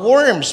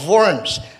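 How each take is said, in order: First: It begins with an English w sound. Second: It begins with a German v sound. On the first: It means earthworms. The speaker calls it wrong. "bulate, hindi po worms" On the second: It names the German city. The speaker calls it right. "Because that's German"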